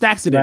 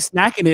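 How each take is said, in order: First: The name ends with a 'sident' sound. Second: The name ends with an 'ing it' sound. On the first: The speaker calls it right. "no, it's Snacksident" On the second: The speaker calls it wrong. "You're saying snacking it every single time, like you smacking it"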